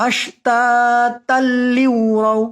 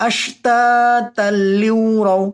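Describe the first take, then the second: Both takes have the same delivery.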